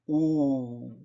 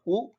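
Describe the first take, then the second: First: The vowel is long and stretched. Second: The vowel is short. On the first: "lengthier uh, stretch" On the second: "instead of ooh"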